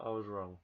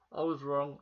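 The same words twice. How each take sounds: First: Said in the usual way. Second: Louder, stress on "was" in "I was wrong"; emphatic admission. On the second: Real, not acted. Vlogger admits to viewers his prediction failed, emphatic. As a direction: hit "was" hard, owning the mistake.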